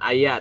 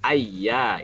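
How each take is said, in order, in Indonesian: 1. Bunyi y-nya pendek dan tunggal. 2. Bunyi y-nya ditahan dan ganda. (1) "bukan ayya" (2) "jangan sampai ya bertasdid hilang"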